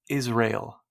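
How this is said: It is said with an American pronunciation. This is the familiar local way of saying it. "It's kind of like how we say Israel"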